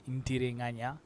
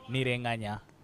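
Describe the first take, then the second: First: The name is said with a 't' sound. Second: The name is said without a 't' sound. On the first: This is how it is said in Uganda. "if it were in Uganda, it would be pronounced as Intirenganya" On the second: This is how it is said in Rwanda. "you guys don't pronounce the T"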